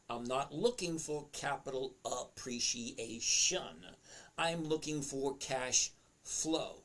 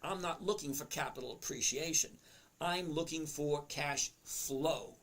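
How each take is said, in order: First: It is spoken at a deliberately slower pace. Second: It is spoken at a normal, quicker pace.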